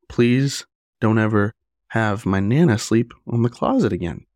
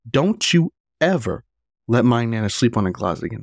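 First: It is said as a polite request. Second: It is said as a forceful, aggressive demand.

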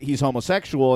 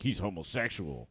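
First: It is said in a plain, matter-of-fact tone. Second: It is said in a scornful, disparaging tone. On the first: It simply states a fact about him. "that's just saying that he's homosexual" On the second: It is meant as a put-down. "or it could be like"

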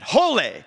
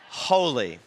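First: The word is shouted loudly. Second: The word is said at normal volume. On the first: The speaker calls it wrong. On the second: The speaker calls it right.

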